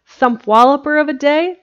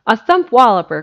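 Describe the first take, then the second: First: High, louder and delighted, rising on day; thrilled question rising on day; ecstatic. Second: Firm, louder correction, word by word; correcting firmly. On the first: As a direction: bubble over with joy at the new word. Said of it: "Jimsy's reply was ecstatic". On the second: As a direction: set the phrase straight, leaning on thump. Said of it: "corrected Jimsy". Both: A narrator's reading.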